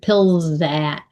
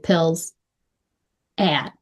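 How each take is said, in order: First: The two words are joined like one word. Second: The two words are said separately. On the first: The speaker calls it right. "One word" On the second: The speaker calls it wrong. "I didn't say pills at"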